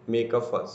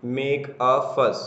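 First: Said in the usual way. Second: MAKE, A, FUSS slow and separated; word-by-word. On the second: Shown as a demonstration. Teacher introducing a new phrase to students, word-by-word. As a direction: draw out "make a fuss" with a full, long "a".

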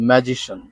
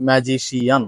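First: Magician as ma-JI-shun; correct pronunciation. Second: Magician drawn out as ma-ji-si-AN; wrong pronunciation. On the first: Teacher corrects the long form, correct pronunciation. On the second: Teacher warns against this form, wrong pronunciation. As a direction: sound "si-an" at the end of magician. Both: Shown as a demonstration. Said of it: "not magician".

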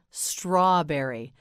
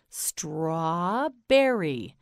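First: Said in the usual way. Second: "Strawberry" very slow, long straw, then berry; syllables stretched out. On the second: Shown as a demonstration. Teacher models for learner, "Strawberry" slowly pulled apart. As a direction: draw out "Strawberry" in separate parts. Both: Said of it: "You say it".

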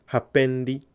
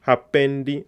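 First: Hapendi said loud and clear; model answer repeated. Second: Hapendi said loud, ha-PEN-di; model answer. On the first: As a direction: confirm Hapendi for students. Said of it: "I hope you had that as your sentence". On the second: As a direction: reveal the answer Hapendi clearly. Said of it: "I want you to have a go". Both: Shown as a demonstration.

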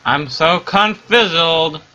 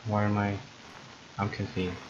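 First: Slow, louder goofy cry. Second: Soft low mumble; too quiet. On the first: Acted. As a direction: drag it out, louder. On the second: Real, not acted. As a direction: say it under your breath. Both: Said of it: "you gotta be louder".

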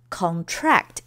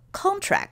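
First: "contract" with the stress on the second syllable. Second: "contract" with the stress on the first syllable. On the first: Teacher modelling the verb for the class, "contract" stressed on the second syllable. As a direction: say "contract" slowly as con-TRACT. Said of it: "重音在第二音节". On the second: Teacher contrasting the noun meaning agreement, "contract" stressed on the first syllable. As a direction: say "contract" as CON-tract, front-stressed. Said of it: "重音在前方". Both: Shown as a demonstration.

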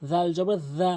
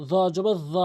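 First: "জা" as a thin voiced th, mouth spread; light, thin. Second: "জ" as a heavy voiced th with rounded lips; full, rounded. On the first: Teacher contrasting letters, "জা" thin and light. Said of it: "এটি হালকা পাতলা করে". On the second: Teacher contrasting letters, "জ" full and rounded. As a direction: round the mouth for a thick "জ". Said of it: "এটি পুর করে". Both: Shown as a demonstration.

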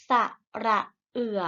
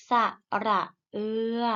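First: เอือ cut short with an abrupt stop; short vowel. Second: เอือ held long and left open; long vowel. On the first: Teacher models vowels for pupils to repeat, short เอือ. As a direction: say ระเอือ with a brief, checked final glide. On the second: Teacher models vowels for pupils to repeat, long เอือ. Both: Shown as a demonstration. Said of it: "ไปฝึกอ่านออกเสียงสระ".

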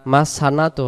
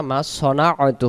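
First: সানাতু read flat, no ain catch before তু; plain সানাতু with no throat stop, the wrong way. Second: সনা'তু with a long আ and a throat catch for ain before তু; correct reading. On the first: Teacher warning students against reading সানাতু without the ain. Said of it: "মা সানাতু হবে না". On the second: Teacher showing students the right form, সনা'তু with the ain. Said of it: "মা সনা'তু হবে". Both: Shown as a demonstration.

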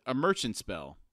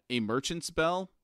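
First: "A merchant's bell." stated flatly, falling on "bell"; a nodding answer dropping down on "merchant's bell"; confirming statement. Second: "A merchant's bell?" with a lifted, higher questioning rise on "bell"; "bell" tilted up as a puzzled question; wondering question. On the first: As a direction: settle it: "A merchant's bell." with a closing fall. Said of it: "Crocus nodded and said". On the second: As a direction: ask "A merchant's bell?" in disbelief, rising at the end. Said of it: "Fiddler wondered". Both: A narrator's reading.

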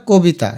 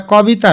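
First: কবিতা as "kobita" with rounded o; correct closed vowel. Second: কবিতা with open ɔ, "kɔbita"; wide first vowel in কবিতা; wrong first vowel. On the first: Teacher says how we say it, কবিতা with closed o. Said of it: "এটা বলি আমরা কবিতা". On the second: Teacher shows students the wrong reading, কবিতা with open ɔ. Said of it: "এটা কবিতা না". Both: Shown as a demonstration.

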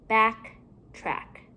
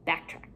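First: BACKTRACK with a gap between "back" and "track"; two separate parts. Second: Said in the usual way. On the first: Shown as a demonstration. Teacher building compound words for pupils, halves kept apart.

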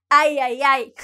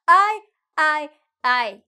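First: Loud "Ay, ay, ay" blended into one word; run-together words. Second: "Ay, ay, ay" with a gap after each word; three isolated, over-careful words, "Ay, ay, ay"; wrongly separated words. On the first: Teacher showing how the words hug each other, run together. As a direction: glide "Ay, ay, ay" together without gaps. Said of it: "they hug each other". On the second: Teacher showing what speakers are not saying, separate words. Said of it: "they are not saying". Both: Shown as a demonstration.

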